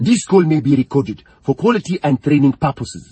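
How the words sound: It is spoken in a Nigerian accent.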